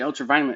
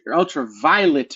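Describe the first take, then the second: First: The word is said quickly and slurred. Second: The word is said slowly and carefully. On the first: The speaker calls it wrong. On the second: The speaker calls it right.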